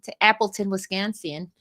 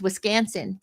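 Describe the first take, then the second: First: A light, half-hearted Wisconsin accent on "Wisconsin", vowels stretched out; attempted Wisconsin accent. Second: Said in the usual way. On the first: Shown as a demonstration. Host jokingly fakes a Wisconsin accent naming the tournament city. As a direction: try a bad Wisconsin accent on Appleton, Wisconsin. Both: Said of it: "That wasn't such a good accent".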